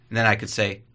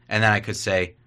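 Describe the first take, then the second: No difference in how they are said.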